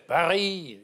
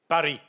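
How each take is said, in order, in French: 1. Le R est un son uvulaire, guttural. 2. Le R se roule avec la pointe de la langue. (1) "Charles de Gaulle les grasseyait" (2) "vous voulez rouler"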